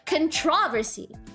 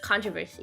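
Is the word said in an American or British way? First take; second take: British; American. First: It is said with a British English pronunciation. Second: It is said with an American English pronunciation. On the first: "in British English, it's controversy" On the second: "in American English, the word controversy is pronounced controversy"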